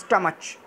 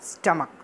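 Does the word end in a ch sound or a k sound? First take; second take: ch; k. First: The word ends with a ch sound. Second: The word ends with a k sound. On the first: The speaker calls it wrong. "We not speak like that" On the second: The speaker calls it right. "We are said स्टमक"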